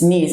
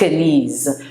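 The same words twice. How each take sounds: First: The word starts with an N sound. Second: The word starts with a K sound. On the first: The speaker calls it right. "It's knees" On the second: The speaker calls it wrong. "it's not knees"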